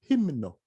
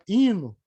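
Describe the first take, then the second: First: Both the m and the n are pronounced. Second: The m is dropped, leaving only n. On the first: The speaker calls it right. "tem que falar do, o M e o N" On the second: The speaker calls it wrong. "Se você falar hino, danou"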